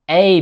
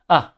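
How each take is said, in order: First: The word has a full vowel. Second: The word has a weak schwa vowel.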